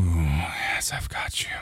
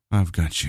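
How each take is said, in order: First: Soft reassuring whisper. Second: Said in the usual way. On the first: Acted. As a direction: breathe it right in the ear. Comforting lover.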